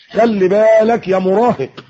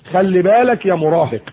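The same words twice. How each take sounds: First: خلي بالك يا مراهق drawn out slowly and higher, weight on بالك; slow stern warning. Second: Said in the usual way. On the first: Shown as a demonstration. Preacher warning the teenager, slow and emphatic. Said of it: "warning the teen". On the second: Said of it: "repeated warning".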